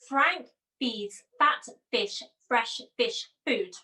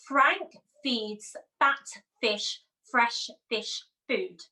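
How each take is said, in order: First: It is said at a faster pace. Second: It is said at a slower, normal pace.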